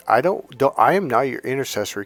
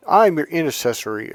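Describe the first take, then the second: First: Said in the usual way. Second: Slightly higher, preachy pastor claiming the role. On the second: Retold or imitated. Vlogger mocking pastors to viewers, lightly pompous. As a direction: put on a self-important pastor. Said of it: "this is what these pastors and priests are doing".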